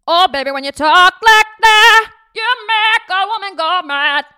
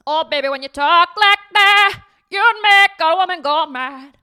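First: Louder, higher, slow warmed-up [name] imitation; better [name] impression. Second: High, loud sung-out [name] imitation; [name] impression. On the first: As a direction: go all out on [name] this time. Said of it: "I think I can do better". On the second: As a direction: belt it like [name], playful. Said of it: "let me do my [name] impression".

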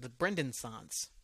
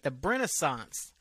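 First: "Brendensance" with the full name Brenden kept; Brendensance pronunciation. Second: "Brenaissance" drawn out slowly, no d in it; Brenaissance pronunciation. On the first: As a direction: sound the d in "Brendensance". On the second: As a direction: blend Brendan into "Brenaissance", dropping the d. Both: Shown as a demonstration. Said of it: "Or is it the Brendensance".

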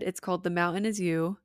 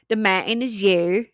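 First: Said in the usual way. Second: Louder, Utah-accented book title; jokey Utah accent on the title. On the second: Shown as a demonstration. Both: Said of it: "Sorry, I have the Utah accent".

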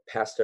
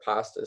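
First: "pasta" with short a, as in cat; Canadian pronunciation. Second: "pasta" with open ah, as in father; American pronunciation. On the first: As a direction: say "pasta" as PASS-ta. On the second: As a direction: say "pasta" as PAH-sta. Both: Shown as a demonstration. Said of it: "could never agree over".

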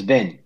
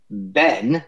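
First: "bin" for Ben, short E raised to short I; Kiwi vowel shift. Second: Said in the usual way. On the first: Shown as a demonstration. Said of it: "change the E vowel to an I". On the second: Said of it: "they tend to change the E vowel".

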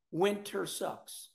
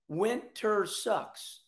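First: Fading softer. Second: Winter sucks stretched way slow; drawn out, very slow. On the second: Host griping about winter, very slow drawn out. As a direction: drag each word out. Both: Shown as a demonstration. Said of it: "repeated for emphasis".

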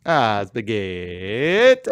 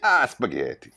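First: Put-on slow Italian accent. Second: Put-on Italian accent. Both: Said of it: "Italian accents".

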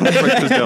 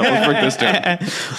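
First: Laughing high and bright. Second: Slow, mock-dramatic repeat; slow drawn-out. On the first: Real, not acted. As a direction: say it while cracking up. Laughing, proposes breaking it down. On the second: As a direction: stretch each word out slowly.

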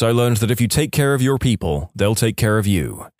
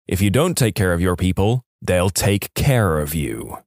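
First: Said in the usual way. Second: Pointed warning. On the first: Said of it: "and then says". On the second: A narrator's reading. New manager staring down the old manager, pointed warning. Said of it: "stared directly at the old manager".

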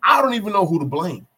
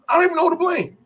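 First: Said in the usual way. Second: Much higher, louder exasperated cry; exasperated, pitch jumping way up; exasperated outburst. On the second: Real, not acted. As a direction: throw it out loud and high in disbelief. Repeats it in exasperation at blown play.

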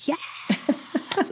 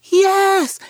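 First: Hushed, voiceless imitation of a kid's roar; mock roar. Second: Put-on high, loud, drawn-out little-kid scream; child's screamed yes. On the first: Little kids answering Nana, mock roaring in an undertone. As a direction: roar it under your breath, soft and rough. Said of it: "they're, like, roaring at me". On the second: Little girl answering Nana about her gift, screaming. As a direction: shriek it like an eager small child. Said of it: "because she's screaming".

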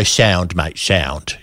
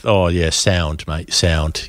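First: Low mock-British "Sound, mate, sound"; British slang imitation. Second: Low, slow mock-British "sound, mate, sound"; British slang imitation. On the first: Host acting a British reply to a pint offer, British lad voice. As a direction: say it like a laid-back British bloke offered a pint. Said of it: "You go". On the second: Host mimicking British blokes saying sound, British lad voice. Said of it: "Do people still say".

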